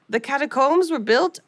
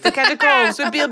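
First: It is spoken with a French accent. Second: It is spoken in the speaker's plain accent.

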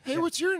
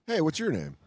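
First: It is said in a little kid's voice. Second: It is said in a normal adult voice.

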